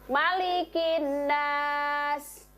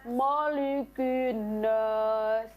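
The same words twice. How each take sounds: First: The s is light, with the tongue back lowered. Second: The s is heavy, with the tongue back raised. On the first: The speaker calls it right. "Huruf sin juga" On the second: The speaker calls it wrong. "Tidak boleh membaca"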